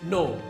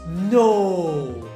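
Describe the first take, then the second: First: It is said in a firm tone. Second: It is said in a gossipy, disbelieving tone. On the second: "disbelief but coming from a busybody neighbor who loves saucy gossips"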